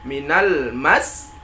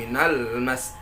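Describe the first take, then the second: First: The pitch rises before the final consonant. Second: The pitch stays level to the end. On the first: The speaker calls it right. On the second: The speaker calls it wrong.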